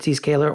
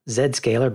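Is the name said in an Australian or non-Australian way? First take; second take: non-Australian; Australian. First: It is said in the speaker's usual accent. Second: It is said the way the Australian co-host says it.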